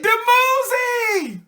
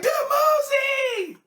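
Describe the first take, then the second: First: High, slow, drawn-out cry of a name; ecstatic call of a lover's name. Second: Very high, slow, crying shout of the name; squealing the name even higher. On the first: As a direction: call out the lost beloved's name in delight, stretching it high. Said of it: "she said". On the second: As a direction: shriek the name again, more thrilled and carried away. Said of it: "She was like". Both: Retold or imitated.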